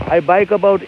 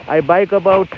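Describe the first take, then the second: No difference in how they are said.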